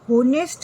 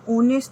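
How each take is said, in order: First: The word begins with an h sound. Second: The word begins with a vowel sound. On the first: The speaker calls it wrong. "होनेस्ट नहीं होता है" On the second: The speaker calls it right. "ओनेस्ट होता है"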